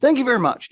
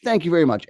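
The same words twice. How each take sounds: First: High and loud thank you; bright, loud thanks to the class; cheerful answer. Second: Said in the usual way. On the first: Real, not acted. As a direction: beam out the translation. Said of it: "What's that mean?".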